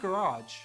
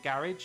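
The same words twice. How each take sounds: First: It is said with an American pronunciation. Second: It is said with a British pronunciation.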